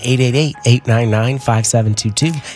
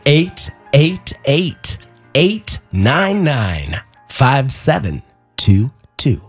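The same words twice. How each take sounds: First: The number is said fast. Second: The number is said slowly.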